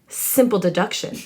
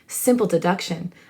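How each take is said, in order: First: The voice is pitched somewhat higher. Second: The voice is pitched lower and deeper. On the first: "I'm doing a Snape voice" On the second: "I'm just going to lower it a little bit"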